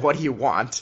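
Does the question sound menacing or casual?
menacing. It sounds threatening and menacing.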